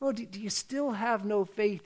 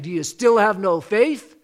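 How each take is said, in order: First: The question is asked gently and patiently. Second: The question is asked harshly and scornfully. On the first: The listeners are being patiently taught. The speaker calls it right. "so patiently" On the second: The listeners are being called foolish. The speaker calls it wrong. "he's not saying"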